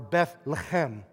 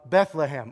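First: The name has a Hebrew-style pronunciation. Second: The name has its usual English pronunciation.

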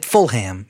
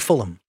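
First: The last syllable is a full 'ham'. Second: The last syllable is reduced to 'um'. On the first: The speaker calls it wrong. "You don't say full ham" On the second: The speaker calls it right. "You say Fulham"

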